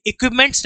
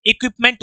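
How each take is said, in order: First: "इक्विपमेंट्स" with an added s at the end; "इक्विपमेंट्स" with the s sounded, as the wrong form; wrong plural form. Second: "इक्विपमेंट" with no s at the end; "इक्विपमेंट" stressed, said without s as the right form; correct singular form. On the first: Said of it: "इक्विपमेंट्स नहीं होता". (गलत रूप "इक्विपमेंट्स", अंत में एस के साथ) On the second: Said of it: "इक्विपमेंट होता है". (सही रूप "इक्विपमेंट", बिना एस के, ज़ोर देकर) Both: Shown as a demonstration.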